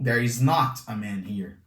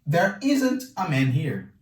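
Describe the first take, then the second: First: The words 'is not' are said as two words. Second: The words 'is not' are contracted to 'isn't'. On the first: "Posso deixar separado" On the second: "posso juntar deixando isn't"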